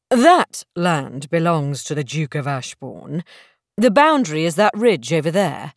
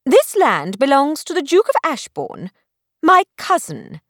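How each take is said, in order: First: Lower, unruffled gentleman's voice; calm correction. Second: Put-on higher, offended young lady; indignant. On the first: Acted. Stranger calmly correcting Belle about the boundary, lower and cool. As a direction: correct her coolly, unbothered. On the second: Belle insisting the land is her cousin's, indignant. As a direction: insist on it, bristling.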